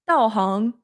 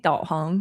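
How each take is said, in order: First: It is said with a Cantonese-accented up-and-down intonation. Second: It is said with standard Mandarin intonation. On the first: Someone else said it. "He's saying 导航" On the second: The speaker says it this way. "I'm saying 导航"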